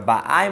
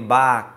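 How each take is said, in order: First: The stress is on the second syllable. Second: The stress is on the first syllable. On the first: It is happening now. "Linguagem presente quando está na segunda sílaba" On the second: It already happened. "Quando a sílaba tônica está em cima... é linguagem de passado"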